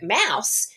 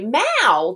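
First: The word ends with its final s sound. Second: The word ends without its final s sound. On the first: The speaker calls it right. "when you look at mouse" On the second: The speaker calls it wrong. "when you don't say the tail or the last sound on your words"

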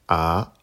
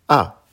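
First: The pitch rises from mid to high. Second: The pitch falls sharply from high to low. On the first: "Deuxième ton" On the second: "Quatrième ton"

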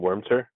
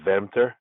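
First: The name is said with English pronunciation. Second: The name is said with German pronunciation.

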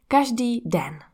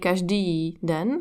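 First: The stress falls on the first syllable. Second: The stress falls on a later syllable. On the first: The speaker calls it right. "So we say" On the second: The speaker calls it wrong. "We don't say"

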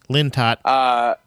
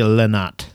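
First: The middle T sound is pronounced. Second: The middle T sound is left out. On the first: The speaker calls it right. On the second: The speaker calls it wrong.

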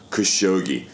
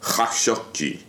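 First: The name starts with a plain k sound. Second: The name starts with a throaty kh sound. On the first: "that's how we got to Khashoggi" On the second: "if you wanted to do it correctly, it would be a kha"

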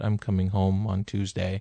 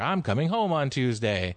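First: It is said in a sad tone. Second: It is said in an excited tone.

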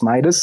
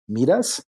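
First: The name is said with an English pronunciation. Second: The name is said with a Spanish-like pronunciation. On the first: This is how it is said in English. "but in English it's Midas" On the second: This is how it is said in Greek. "in Greece, it's probably going to be Midas, kind of like in Spanish"

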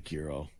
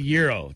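First: The word starts with a hard G sound. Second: The word starts with a Y sound, no G. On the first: The speaker calls it wrong. "not a gyro" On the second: The speaker calls it right. "It's a silent G"

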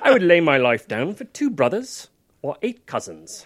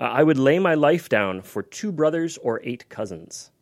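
First: It is said in a put-on British accent. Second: It is said in his normal accent.

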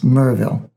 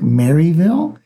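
First: The name is reduced to a short Mur-ville. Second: The name is said fully as Mary-ville. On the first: The speaker calls it right. "It's Murville" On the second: The speaker calls it wrong. "you'd think Maryville. It's not"

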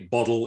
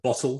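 First: It is said with an American pronunciation. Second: It is said with a British pronunciation. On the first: This is the form adopted to be understood. "I have to say bottle" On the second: This is the speaker's usual form. "instead of bottle"

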